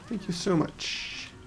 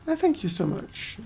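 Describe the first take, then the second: First: It is said in a normal speaking voice. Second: It is said in a cartoonish Italian voice.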